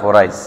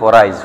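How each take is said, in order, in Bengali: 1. এটি একটি সংক্ষিপ্ত আঞ্চলিক উচ্চারণে বলা হয়েছে। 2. এটি একটি সংক্ষিপ্ত আঞ্চলিক উচ্চারণে বলা হয়েছে।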